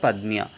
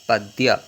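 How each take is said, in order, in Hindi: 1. यह सामान्य गैर-पूर्वी तरीके से बोला जाता है। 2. यह पूर्वी बंगाली तरीके से बोला जाता है। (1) "जैसे कहा जाता है पाद पद्म्य" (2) "बंगाल में अगर आ जाते तो वहां पर कहते हैं उसे पाद पद्य"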